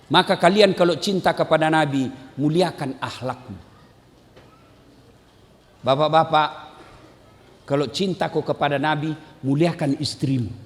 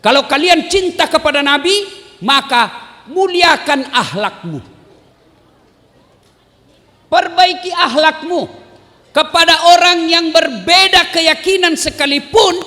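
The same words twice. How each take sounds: First: Lower, much softer, earnest; preacher repeating his call gently and low; soft closing plea. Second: Preacher urging the crowd, raised and fervent; rousing preaching. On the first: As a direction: bring it down to a quiet appeal. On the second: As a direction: call the congregation out. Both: Acted.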